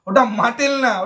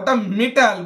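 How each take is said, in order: First: The first vowel is an open 'ah' sound. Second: The first vowel is an 'eh' sound. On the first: The speaker calls it wrong. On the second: The speaker calls it right. "ওটা মেটাল, বুঝলি?"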